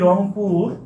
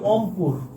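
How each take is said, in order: First: The word begins with an r sound. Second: The word begins without an r sound. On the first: "যেমন আমরা বলি রংপুর" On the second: "রংপুরকে আমরা বলি অংপুর"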